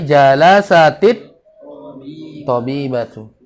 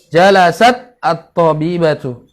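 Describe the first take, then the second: First: The t links to the article with an i-vowel. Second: The t is bare, with no vowel after it.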